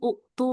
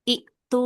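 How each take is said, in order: First: The word begins with a u vowel. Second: The word begins with an i vowel. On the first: The speaker calls it wrong. "bukan uktu nih" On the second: The speaker calls it right. "tapi iktu nih ya"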